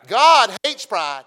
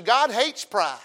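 First: God hates pride, slow and much louder, each word hammered; slow loud emphasis. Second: Said in the usual way. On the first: Acted. Preacher warns congregation about pride, slow booming emphasis. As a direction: drive it home slow and loud.

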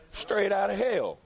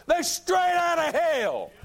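First: Said in the usual way. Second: High, loud and slow preacher's cry; shouted condemnation. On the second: Acted. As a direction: roar it from the pulpit. Repeated line, shouted then quiet.

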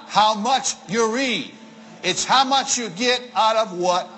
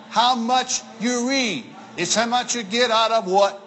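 Both takes have the same delivery.

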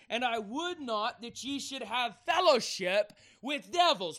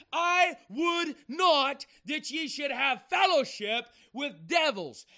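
First: Said in the usual way. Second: "I would not that ye should have fellowship" loud, high and slow, each word hammered; emphatic repetition. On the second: Shown as a demonstration. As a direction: hammer out "I would not", punch "fellowship", then drop on "with devils". Get this.

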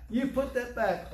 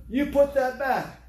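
First: Firm repeat. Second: Loud, slow, higher order to put it back; slow loud retold scolding; stern command. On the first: Retold or imitated. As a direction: repeat the order, steadier. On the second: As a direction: bark it like a store clerk catching a thief. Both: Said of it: "some lady came over there".

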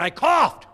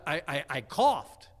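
First: Very high, very loud mock yell; exasperated yell. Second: Loud, slow answer with false starts; stammered loud reply. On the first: Husband repeats himself to wife upstairs, exasperated yell. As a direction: holler it so someone upstairs finally hears. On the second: Retold or imitated. Husband explains the noise to wife upstairs, stammered loud reply.

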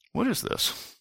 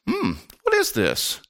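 First: "What is this?" high and hushed, falling away; dubious intonation. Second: "Hmm, what is this?" high, slow and musing; curious intonation. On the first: Diner questioning what was served at dinner, hushed, dubious intonation. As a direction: drop the voice very soft, starting high on "what". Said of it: "There's a big difference between". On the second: Diner eyeing the dish at the dinner table, slow, curious intonation. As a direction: ponder with a drawn-out "Hmm", then lift "what is this". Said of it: "It's all about the intonation". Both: Shown as a demonstration.

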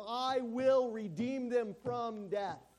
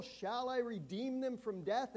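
First: Slow, loud, stress on will, falling; God's vow to redeem; firm promise. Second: Slow, raised, rising on them; God's doubting question; rhetorical question. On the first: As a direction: land it as a sure promise. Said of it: "he's making a statement". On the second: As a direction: let it hang as a question. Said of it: "Reads it as a rhetorical question". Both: Shown as a demonstration.

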